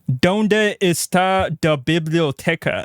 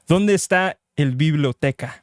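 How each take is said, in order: First: It is said with a light Spanish accent. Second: It is said with a heavy Spanish accent. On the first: The speaker calls it wrong. "That's not how you're supposed to say it" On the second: The speaker calls it right. "You're supposed to say it with more of an accent"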